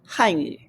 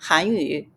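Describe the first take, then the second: First: The first syllable has a falling tone. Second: The first syllable has a rising tone. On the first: It names the Chinese language. "this one's a fourth tone" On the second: It names the Korean language. "this one's a second tone"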